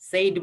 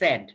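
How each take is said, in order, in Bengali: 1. স্বরধ্বনিটি 'say'-এর মতো শোনায়। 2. স্বরধ্বনিটি 'set'-এর মতো শোনায়। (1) "said বলবা না" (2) "এটা said"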